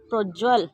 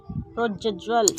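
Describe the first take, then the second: First: प्रोज्वल with one j, "projval"; प्रोज्वल without the doubled j; wrong pronunciation. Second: प्रोज्ज्वल with a doubled j, "projjval"; प्रोज्ज्वल broken as proj-jval; correct pronunciation. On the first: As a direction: run प्रोज्वल together as proj-val. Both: Shown as a demonstration. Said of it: "अशुद्ध और फिर शुद्ध".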